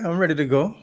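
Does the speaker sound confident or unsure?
unsure. It is said hesitantly, without confidence. The speaker calls it wrong.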